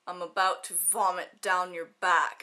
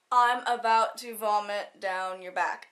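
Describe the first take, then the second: First: Lower, slow and mildly sinister; mock menacing quote. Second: Said in the usual way. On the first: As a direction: lightly play a creepy threat, low and drawn out. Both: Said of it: "she didn't say it like that".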